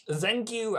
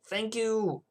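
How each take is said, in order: First: "Thank you" with a German z, zank you; higher mock German accent, thanking a viewer. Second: Said in the usual way. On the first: Thanking Ria in a mock German accent. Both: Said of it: "I don't know why I went German".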